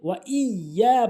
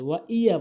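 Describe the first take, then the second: First: The y sound is held and doubled. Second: The y sound is short and single. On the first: The speaker calls it right. "ওয়া ইয়া বলতে হবে" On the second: The speaker calls it wrong. "এখানে ওয়া ইয়া বলে"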